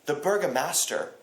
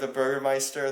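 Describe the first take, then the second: First: The second part sounds like master. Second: The second part sounds like meister. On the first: The speaker calls it wrong. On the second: The speaker calls it right.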